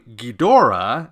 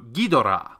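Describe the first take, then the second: First: The stress is on the second syllable. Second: The stress is on the first and third syllables. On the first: This is how Western fans say it. "unlike the second syllable emphasis of English" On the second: This is how it is said in Japanese. "a three-syllable word has the first and third syllables emphasized"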